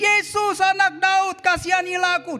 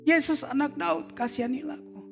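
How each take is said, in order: First: It is said much louder. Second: It is said at normal volume.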